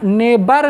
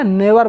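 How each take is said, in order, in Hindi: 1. बीच का व्यंजन b की आवाज़ है। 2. बीच का व्यंजन v की आवाज़ है। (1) "यहाँ नेबर नहीं बोलना है" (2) "नेवर बोलना है"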